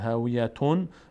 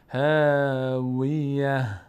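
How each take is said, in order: First: The word ends in a t sound plus -un. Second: The word ends in a soft h sound. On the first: The reciter continues into the next word. "اما اگه ادامه میدادم" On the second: The reciter stops on this word. "چون اینجا توقف کردم هم نقطه افتاد هم تنوین افتاد ه شد"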